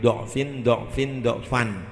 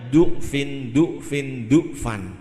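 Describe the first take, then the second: First: The first vowel of each word sounds like 'o'. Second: The first vowel of each word sounds like 'u'. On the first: "boleh doknya dibaca fathah" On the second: "atau dibaca du'fin du'fin du'fan"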